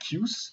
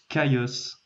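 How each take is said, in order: First: The first syllable sounds like 'kee'. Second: The first syllable sounds like 'kai'. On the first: The speaker calls it wrong. "pendant longtemps, je disais Kius" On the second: The speaker calls it right. "mais ça se prononce Caius"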